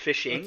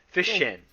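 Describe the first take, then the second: First: The ending is said with a full -ing sound. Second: The ending is said as a clipped -in sound. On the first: The speaker calls it wrong. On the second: The speaker calls it right.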